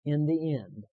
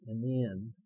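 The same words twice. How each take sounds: First: Firm line for repeating; leading a recitation. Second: Said in the usual way. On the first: Shown as a demonstration. Preacher asking the congregation to repeat with him, leading firmly. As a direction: give it out for them to repeat. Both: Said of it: "And then repeat with me".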